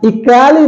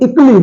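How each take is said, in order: First: The ending has a full 'kay' vowel sound. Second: The ending is clipped to 'klee' without a vowel. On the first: The speaker calls it wrong. "इकैली नहीं होता है" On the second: The speaker calls it right. "बल्कि इकली होता है"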